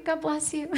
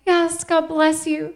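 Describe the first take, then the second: First: Much softer repeated God bless you; hushed blessing to the moms; soft echo. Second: Said in the usual way. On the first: Real, not acted. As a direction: murmur God bless you again under the breath. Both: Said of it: "Do we have any homeschool moms".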